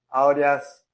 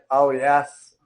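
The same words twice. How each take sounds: First: The stress is on the first syllable. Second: The same.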